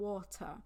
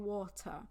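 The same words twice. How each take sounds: First: It is said in a British accent. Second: It is said in a British accent.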